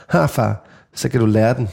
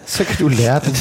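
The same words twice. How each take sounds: First: Lower, deadpan little jab; cold put-down. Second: Quoted line repeated through a laugh. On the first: Retold or imitated. Daughter coolly telling dad he had it coming, deadpan. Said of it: "kigger Ellie op på mig helt koldt". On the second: Shown as a demonstration. Father repeating daughter's cheeky line, laughing. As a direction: relish it while laughing. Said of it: "repeats line laughing".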